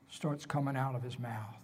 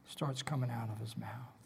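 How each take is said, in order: First: Said in the usual way. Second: Softly whispered echo; hushed repeat. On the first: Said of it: "repeated as a whisper". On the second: Shown as a demonstration. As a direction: drop to a whisper. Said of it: "first said aloud".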